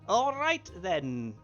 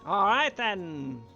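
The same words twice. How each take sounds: First: It is said in a plain speaking voice. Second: It is said in a loud showman's voice. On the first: The speaker calls it right. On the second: The speaker calls it wrong.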